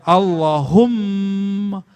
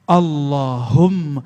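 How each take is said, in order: First: Allahumma slow, the mm doubled, no stretching of Allah; correct reading. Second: Allahumma slow, the hum stretched long; mock the wrong reading that stretches hum; wrong drawn-out hum. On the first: Shown as a demonstration. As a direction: show the right way: the doubled m, flowing straight on. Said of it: "langsung jalan dia". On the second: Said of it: "humnya dipanjangkan".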